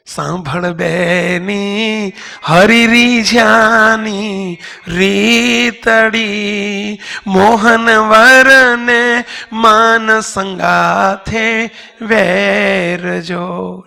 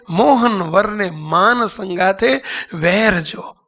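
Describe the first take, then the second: First: Very slow, loud singing with long held notes; sung devotional verse. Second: Slow, measured recitation without singing; spoken verse. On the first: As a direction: sing it out as a bhajan. (sung, લંબાવીને ગાયેલું ભજન) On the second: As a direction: say the verse slowly, word by word. Same verse spoken while explaining. (ધીમેથી બોલાયેલી પંક્તિ) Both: Real, not acted.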